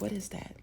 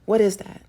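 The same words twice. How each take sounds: First: Quiet, wary what is that; hushed puzzled question. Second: Louder, startled what is that; louder puzzled question. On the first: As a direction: ask it softly, a little spooked. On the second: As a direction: call it out, alarmed. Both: Retold or imitated. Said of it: "they'll be like".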